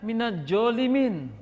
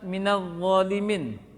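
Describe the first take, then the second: First: The second word starts with a j sound. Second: The second word starts with an emphatic z sound. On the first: The speaker calls it wrong. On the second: The speaker calls it right.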